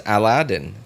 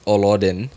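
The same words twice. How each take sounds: First: Aladdin with a flat a like apple, A-la-din; correct Aladdin. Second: Olodin said with open o sounds, O-lo-din; wrong Olodin. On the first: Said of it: "I pronounce it as Aladdin". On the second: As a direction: say Olodin with round o vowels throughout. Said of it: "I don't pronounce Aladdin as Olodin". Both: Shown as a demonstration.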